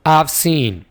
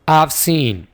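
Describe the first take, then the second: First: 'Have' is shortened and joined onto 'I'. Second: The same.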